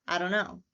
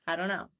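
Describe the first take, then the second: The two takes are said the same way.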